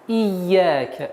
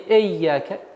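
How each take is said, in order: First: The first vowel is a clear 'i' sound. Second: The first vowel sounds like an 'e'. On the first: The speaker calls it right. "Четкое и ясное произношение звука «и»" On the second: The speaker calls it wrong. "не «эйяка»"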